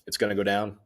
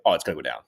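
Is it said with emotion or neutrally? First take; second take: neutrally; emotion. First: It is said flatly, without emotion. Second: It is said with emotion, sounding dismayed.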